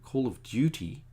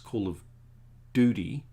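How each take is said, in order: First: The u in Duty is said as 'yoo'. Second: The u in Duty is said as 'oo'.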